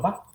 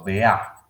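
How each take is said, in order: First: The word is cut to one short syllable. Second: The r and the final d are dropped. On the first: "al rato voy a estar diciendo, diciendo va" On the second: "me paso a vea"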